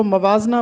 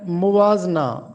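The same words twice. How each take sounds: First: मवाजना starting "ma", "ma-waaz-na"; wrong मवाजना with zabar on meem; common mispronunciation. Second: मुवाजना starting "mu", "mu-waaz-na"; teacher's corrected मुवाजना, "muwaazna"; correct pronunciation. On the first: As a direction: open a on the m of मवाजना. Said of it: "अक्सर लोग इसको मवाजना पढ़ते हैं". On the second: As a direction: round the m of मुवाजना to u. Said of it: "जबकि दुरुस्त लफ्ज़ है मुवाजना". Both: Shown as a demonstration.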